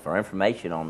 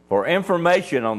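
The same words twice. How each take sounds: First: It is said in an ordinary speaking voice. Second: It is said in a put-on radio DJ voice.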